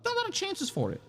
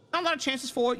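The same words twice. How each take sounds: First: High voice. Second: Said in the usual way. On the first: Pretend. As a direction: jump way up high. Repeats phrase in high voice.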